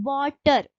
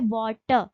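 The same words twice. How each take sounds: First: वाटर with the R clearly sounded, वॉटर्र; American pronunciation. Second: वाटर with no R at the end, वॉटə; British pronunciation. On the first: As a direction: say वाटर ending in a rolled-in R sound. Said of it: "वाटर में आर का हम pronunciation कर रहे". (वाटर को आर के साथ बोलें) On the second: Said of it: "तो ये पढ़ा जाता है वाटर". (वाटर बिना आर के, ब्रिटिश ढंग से) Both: Shown as a demonstration.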